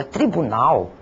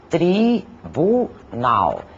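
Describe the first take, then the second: First: Said in the usual way. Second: "tribunal" slowly split into tri, bu, nal; very slow, separated "tri-bu-nal"; syllable by syllable. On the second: Shown as a demonstration. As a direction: pause between each syllable of "tribunal". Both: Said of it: "composta por três sílabas".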